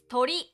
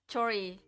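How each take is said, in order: First: The word begins with a t sound. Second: The word begins with a ch sound. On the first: The speaker calls it right. "It's tori" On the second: The speaker calls it wrong. "It's not chori"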